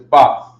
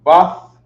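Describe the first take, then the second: First: It is said the Hebrew way. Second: The same.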